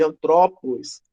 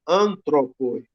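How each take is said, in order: First: Antrópos with the middle TRÓ stressed and drawn out; slow antrópos, stressed an-TRÓ-pos; stress on second syllable. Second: Antropoi with the opening AN stressed; slow antropoi, stressed AN-tro-poi; stress on first syllable. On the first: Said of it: "o acento pra cá". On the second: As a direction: keep the stress on AN in antropoi, slowly. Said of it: "o que não acontece no nominativo". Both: Shown as a demonstration.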